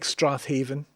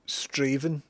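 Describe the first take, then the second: First: The name is said in full, as spelled. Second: The name is said in a shortened form. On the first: The speaker calls it wrong. "It looks like Strathaven" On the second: The speaker calls it right. "that is Straven"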